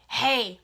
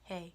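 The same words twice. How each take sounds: First: It is said in an angry tone. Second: It is said in a flat, mellow tone.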